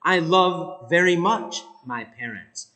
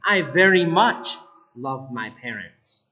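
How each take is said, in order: First: "love" lengthened and held; stress on love. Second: "much" carries the weight, lower tone; stress on much. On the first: Teacher putting emphasis on "love", lengthened. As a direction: stretch out "love" in "I love very much my parents". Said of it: "Now the emphasis is on love". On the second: Teacher showing the adverb before the verb, stress on "much". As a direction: lean on "much" in "I very much love my parents". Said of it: "put it before love". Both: Shown as a demonstration.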